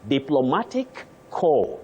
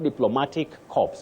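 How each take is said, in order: First: The last word sounds like 'core', no final sounds. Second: The last word ends with audible 'ps' sounds. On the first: A body of diplomats. The speaker calls it right. "you talk of core, not corpse" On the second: A dead body. The speaker calls it wrong. "not diplomatic corpse"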